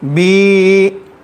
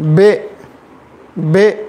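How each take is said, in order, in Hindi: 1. स्वर लंबा खींचा गया है। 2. स्वर e जैसा है, i जैसा नहीं। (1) "खींचेंगे तो ये है बी" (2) "मजहूल अगर पढ़ेंगे बे बे"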